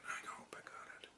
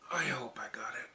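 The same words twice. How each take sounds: First: Fast breathy whisper to self; quick nervous whisper. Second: Said in the usual way. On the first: Real, not acted. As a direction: whisper it as a hopeful aside. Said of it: "repeated softer". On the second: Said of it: "whisper take".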